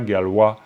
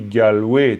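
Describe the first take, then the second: First: The word ends on a plain vowel, no glide. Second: The word ends with a y-glide after the vowel. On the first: No genitive links this word to the next. The speaker calls it wrong. "tu dis pas Galwa" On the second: A genitive links this word to the next. The speaker calls it right. "tu marques d'une manière sonore la présence du génitif parce que tu dis Galway"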